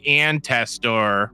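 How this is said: It is said with a Midwestern American accent. The speaker calls it wrong. "because I'm from the middle of America"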